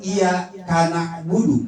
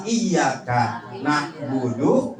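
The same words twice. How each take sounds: First: Iya karena budu as iya, kana'budu; wrong word break. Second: Iya karena budu as iyyaka, na'budu; slow, break after ka; correct word break. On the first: Teacher warns against this reading, wrong word break. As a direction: break after iya, ka runs into na. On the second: Teacher gives the right reading, correct word break. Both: Shown as a demonstration.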